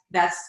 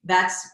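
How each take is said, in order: Both takes have the same delivery.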